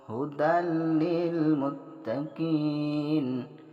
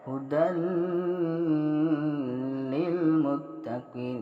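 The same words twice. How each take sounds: First: The merged sound has no nasal hum. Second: The merged sound has a nasal hum. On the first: The speaker calls it right. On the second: The speaker calls it wrong.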